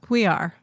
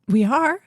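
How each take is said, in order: First: It sounds like a sure, confirming statement. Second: It sounds like a surprised, unsure question. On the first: The speaker confirms it as planned. The speaker calls it right. "Marginally better" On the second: The speaker did not know about it. The speaker calls it wrong. "The inflection of my voice was just wrong"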